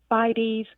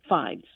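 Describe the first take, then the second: First: The word is said with two syllables. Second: The word is said with one syllable.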